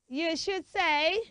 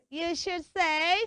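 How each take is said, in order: Both takes have the same delivery.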